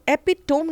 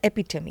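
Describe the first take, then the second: First: It ends in a 'tome' sound, three syllables. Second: It ends in an 'ee' sound, four syllables. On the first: The speaker calls it wrong. "एपिटोम नहीं होता" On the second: The speaker calls it right. "It's एपिटमी"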